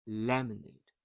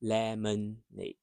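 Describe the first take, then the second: First: "lemonade" with a short, soft schwa in the middle; reduced middle vowel. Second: "lemonade" with every syllable given full weight; over-pronounced lemonade. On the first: Teacher models the schwa for learners, "lemonade" with unstressed middle. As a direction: let the middle vowel of "lemonade" almost vanish. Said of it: "So it's short, soft". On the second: Teacher showing learners what not to say, "lemonade" over-pronounced. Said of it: "So you don't say". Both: Shown as a demonstration.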